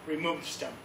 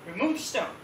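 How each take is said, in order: First: Low, soft instruction; understated low command; Jesus's quiet command. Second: Questioning echo of a command; lightly acted disbelief; incredulous echo. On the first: Retold or imitated. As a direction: tell them quietly, lightly voiced Jesus. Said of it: "he tells everyone". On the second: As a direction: repeat the order back in mild disbelief. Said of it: "everyone was like".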